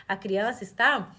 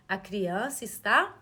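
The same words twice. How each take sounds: The two takes are said the same way.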